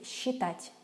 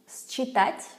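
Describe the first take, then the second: First: The first consonant is one soft sound. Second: The first consonant is two separate sounds. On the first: The speaker calls it right. "we say считать" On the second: The speaker calls it wrong. "We don't say that"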